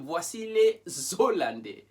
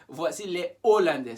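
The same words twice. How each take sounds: First: The s of les links into Hollandais. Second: Les is kept apart from Hollandais. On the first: The speaker calls it wrong. "You won't say" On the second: The speaker calls it right. "Separate les from Hollandais"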